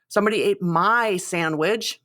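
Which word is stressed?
my. The stress is on "my".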